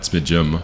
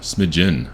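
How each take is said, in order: First: The word ends with an m sound. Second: The word ends with an n sound. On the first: The speaker calls it wrong. "not smidgem" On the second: The speaker calls it right. "I've been saying it wrong my, uh, my entire life"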